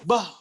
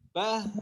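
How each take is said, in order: First: The final h sound stops abruptly. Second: The final h sound flows out smoothly. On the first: The speaker calls it wrong. "enggak ngalir" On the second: The speaker calls it right. "ngalir ya"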